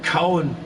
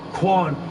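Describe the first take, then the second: First: The name is said with two syllables. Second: The name is said with one syllable. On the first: The speaker calls it wrong. "I always pronounced it as Cowan" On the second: The speaker calls it right. "it's actually pronounced as Quan"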